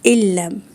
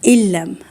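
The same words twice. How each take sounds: First: The n merges into a doubled l sound. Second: The n merges into a doubled l sound.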